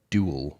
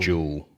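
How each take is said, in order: First: It is said in an American accent. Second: It is said in a British accent, like jewel.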